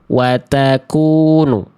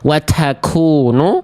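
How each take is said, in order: First: The t is released with a light puff of breath. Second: The t is released with a heavy puff of breath. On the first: The speaker calls it right. "Kedengeran nggak percikan nafasnya?" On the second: The speaker calls it wrong. "tidak terlampau berlebihan seperti ini"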